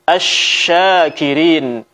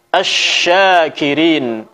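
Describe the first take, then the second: Both takes have the same delivery.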